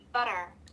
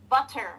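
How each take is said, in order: First: The middle T is a soft, quick flap. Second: The middle T is a crisp, clear stop. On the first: The speaker calls it right. "you swap the T with a soft B" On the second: The speaker calls it wrong. "won't say butter"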